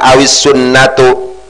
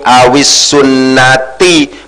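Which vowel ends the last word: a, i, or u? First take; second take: u; i. First: The last word ends in a u vowel. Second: The last word ends in an i vowel. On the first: The speaker calls it wrong. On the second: The speaker calls it right. "dibaca jar karena dimasuki huruf jar"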